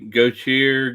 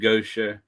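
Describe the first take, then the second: First: The name ends with a 'tee-ay' sound. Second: The name ends with a 'sha' sound. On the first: The speaker calls it wrong. "most people look at that and they say Gautier" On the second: The speaker calls it right. "It's pronounced Gosha"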